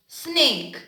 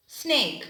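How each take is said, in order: Both takes have the same delivery.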